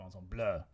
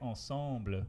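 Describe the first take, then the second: First: The final schwa syllable is stressed. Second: The final schwa syllable is unstressed. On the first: The speaker calls it wrong. "You don't go ensemble" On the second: The speaker calls it right. "on words like ensemble, where it has like the a little schwa at the end, no, you don't"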